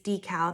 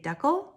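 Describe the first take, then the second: First: It is said with an American accent. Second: It is said with a Canadian accent.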